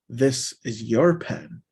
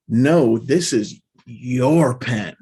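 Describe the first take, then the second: First: "your" drawn out with a slight lift; slow it down and lean on "your"; stress on YOUR. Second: Loud "no", then "your" drawn out long and loud; stress on YOUR. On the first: Teacher translating for learners, stress on "your". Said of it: "it's emphasizing your". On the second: Teacher showing the emphasis to learners, heavy stress on "your". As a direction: hit "your" hard and slowly. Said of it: "Like, there's emphasis". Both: Shown as a demonstration.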